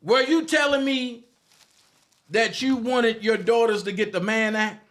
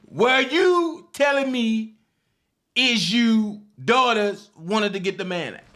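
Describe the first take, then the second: First: Higher, louder put-on Dabrowski voice; mock the man with a raised, pushy voice. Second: Dabrowski voice. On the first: Mocking a critic in a raised put-on voice. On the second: Retold or imitated. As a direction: stretch the mockery out after laughing. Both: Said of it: "in my Dabrowski voice".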